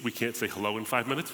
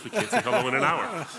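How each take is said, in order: First: Said in the usual way. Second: Laughing, pitched up on the punchline. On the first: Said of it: "repeated as a joke". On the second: Real, not acted. Guest to host, laughing at his own Lebanese joke. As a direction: laugh through the topper of the joke.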